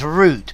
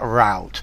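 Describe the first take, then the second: First: The vowel rhymes with boot. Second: The vowel rhymes with out. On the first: The speaker calls it right. "You say it the British way, it's root" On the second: The speaker calls it wrong. "How can anybody pronounce that route?"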